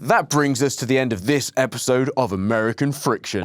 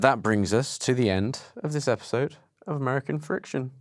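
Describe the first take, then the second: First: It is said in a firm, convinced tone. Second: It is said in an odd, unconvinced tone. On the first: The speaker calls it right. "Said it with much more conviction there" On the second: The speaker calls it wrong. "I knew I was going to say it weirdly"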